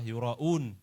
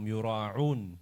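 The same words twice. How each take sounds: First: The middle consonant is a glottal stop. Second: The middle consonant is a pharyngeal ain sound. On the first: It refers to people who show off. The speaker calls it right. "pakai hamzah bukan ain" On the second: It refers to people who mingle with the common folk. The speaker calls it wrong. "itu salah"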